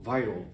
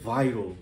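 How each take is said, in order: Both takes have the same delivery.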